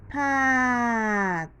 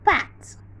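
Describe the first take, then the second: First: The sounds are stretched out slowly. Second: The word is said more quickly.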